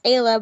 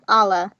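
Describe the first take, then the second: First: The name is said like 'Ayla'. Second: The name is said like 'Allah'. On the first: The speaker calls it right. "It's actually pronounced Ayla" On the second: The speaker calls it wrong. "a lot of people like they pronounce her name as um Allah"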